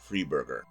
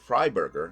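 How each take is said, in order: First: The first syllable sounds like 'free'. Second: The first syllable sounds like 'fry'. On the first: The speaker calls it wrong. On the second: The speaker calls it right. "It's supposed to be"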